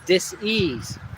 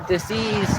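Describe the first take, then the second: First: The word is split slowly into two parts. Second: The word is said quickly as one unit. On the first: The body is simply not at ease. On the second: It names a serious illness needing a doctor.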